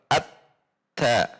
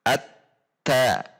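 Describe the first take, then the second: The two takes are said the same way.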